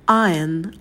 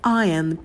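The two takes are said the same way.

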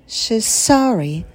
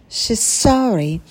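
No difference in how they are said.

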